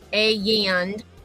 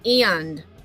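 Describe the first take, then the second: First: The word is drawn out into two syllables. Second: The word is said as a single syllable. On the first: The speaker calls it wrong. "using two syllables like this" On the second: The speaker calls it right. "It's one syllable"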